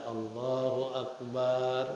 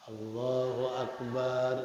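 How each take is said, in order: Both takes have the same delivery.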